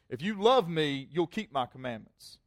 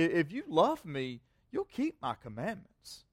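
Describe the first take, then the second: First: It is said in a stern, lecturing tone. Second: It is said in a warm, sincere tone.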